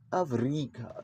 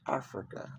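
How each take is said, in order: First: The R sound in it is exaggerated. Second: The R sound in it is plain. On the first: This is how movies portray Africans speaking. The speaker calls it wrong. "these R's sound like Africa" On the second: This is how Africans actually say it. The speaker calls it right. "We say Africa, just like y'all"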